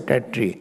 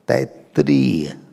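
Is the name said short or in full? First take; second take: short; full. First: The name is clipped to two syllables. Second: The name is said with all four syllables. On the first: The speaker calls it wrong. "Don't say Tatri" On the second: The speaker calls it right. "It is Taittiriya, not Tatri"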